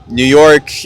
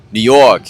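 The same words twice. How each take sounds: First: Said in the usual way. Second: Tentative New York accent. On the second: Shown as a demonstration. Host showing visitors local accents, New York accent. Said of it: "I don't really know how to do it".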